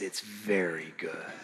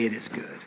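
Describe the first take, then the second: First: Much lower, softer, slow, leaning on "very"; stress on very. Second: Much lower and softer; quiet satisfied verdict; lightly voiced God. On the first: Pretend. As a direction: savor "very" slowly and quietly. God's words, contrasted with good. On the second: God's words, contrasted with very good.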